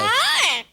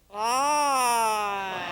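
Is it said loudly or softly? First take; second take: loudly; softly. First: It is said loudly. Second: It is said softly.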